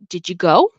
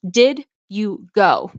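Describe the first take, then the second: First: The d and y blend into one sound. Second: Each word is said separately and clearly. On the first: "But when you hear" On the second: "is how it's supposed to be pronounced"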